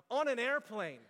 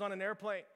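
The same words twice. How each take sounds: First: "airplane" set apart and emphasized; stress on airplane. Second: Said in the usual way. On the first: Real, not acted. Preacher mocking his own Wi-Fi complaint, stress on "airplane". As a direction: land hard on "airplane" in disbelief. Incredulous repeat of the place.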